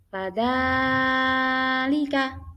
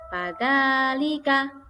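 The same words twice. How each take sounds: First: The middle vowel is drawn out very long. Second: The middle vowel is held only briefly. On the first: The speaker calls it wrong. "Bacaan yang salah contohnya fadzalika itu terlalu panjang" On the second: The speaker calls it right. "Panjang yang benar hanya dua harokat"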